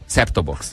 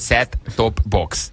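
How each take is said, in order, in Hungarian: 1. A középső t el van hagyva, egybefolyik. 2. Minden részt külön mondanak, a t ki van ejtve. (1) "Én így mondom" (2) "ezt úgy jelent, hogy set-top-box"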